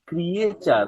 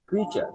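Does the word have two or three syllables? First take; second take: three; two. First: It is said with three syllables. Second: It is said with two syllables. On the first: The speaker calls it wrong. "এই শব্দটার উচ্চারণ ক্রিয়েচার না" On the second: The speaker calls it right. "এটার উচ্চারণ হচ্ছে ক্রিচার"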